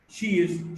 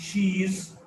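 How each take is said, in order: First: The vowel in 'she' is short. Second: The vowel in 'she' is longer.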